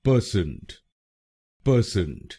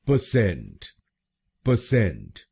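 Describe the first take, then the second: First: percent with the weight on पर, PER-sent; wrong stress on first syllable. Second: percent with the weight on Saint, pə-SENT; stress on second syllable. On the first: Teacher showing the wrong first-syllable stress in percent. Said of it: "गलत pronunciation में हम पहले शब्दांश पर जोर डालते हैं". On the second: Teacher showing the stress on Saint in percent. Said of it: "दूसरे शब्दांश पर ... जोर डालना है". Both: Shown as a demonstration.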